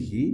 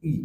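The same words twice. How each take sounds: First: "he" with a sounded h and long ee; strong form. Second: "ই" as he without its h; weak form. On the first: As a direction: breathe out a full h in "he". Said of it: "আমরা strong sound করছি". ("he" হ-ধ্বনি সহ, strong সাউন্ডে) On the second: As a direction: drop the h, just a short "ই". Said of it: "ই sound আসতেছে". (হ ছাড়া শুধু "ই") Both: Shown as a demonstration.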